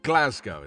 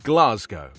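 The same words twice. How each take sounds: First: It is said in a Scottish accent. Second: It is said in a non-Scottish accent.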